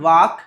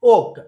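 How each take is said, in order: First: The L sound is pronounced in the word. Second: The L sound is silent in the word. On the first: The speaker calls it wrong. "It's not walk" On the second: The speaker calls it right. "ఇందులో ఎల్ silent లెటర్గా ఉందండి"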